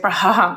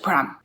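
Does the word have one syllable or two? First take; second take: two; one. First: It is said with two syllables. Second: It is said with one syllable. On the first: The speaker calls it wrong. "Like we don't say Braham or something like that" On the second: The speaker calls it right. "It's just Brahm"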